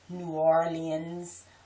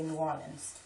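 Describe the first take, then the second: First: It is pronounced the way outsiders say it. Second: It is pronounced the way locals say it. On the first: Outsiders say it this way. The speaker calls it wrong. "I hate when people say New Orleans" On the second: Locals say it this way. The speaker calls it right. "We say New Orleans"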